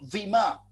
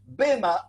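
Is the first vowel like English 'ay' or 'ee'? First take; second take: ee; ay. First: The first vowel sounds like 'ee'. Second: The first vowel sounds like 'eh'. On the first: "me gusta usar más la palabra bima" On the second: "De las dos maneras se puede pronunciar"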